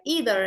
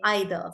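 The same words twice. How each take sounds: First: American "either", starting with an ee sound; American pronunciation. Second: "either" starting with an eye sound; British-style pronunciation. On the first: Teacher contrasting accents for students, American "either". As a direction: say "either" as "EE-ther". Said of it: "Americans say". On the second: Teacher showing how we say it, British-style "either". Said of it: "and we say either". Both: Shown as a demonstration.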